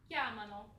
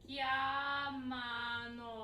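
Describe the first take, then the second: First: It is said at normal speed. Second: It is said very slowly.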